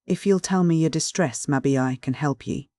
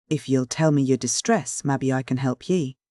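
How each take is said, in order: First: Solemn sternness. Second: Said in the usual way. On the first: A narrator's reading. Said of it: "he repeated with a solemn, deliberate sternness". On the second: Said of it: "he repeated".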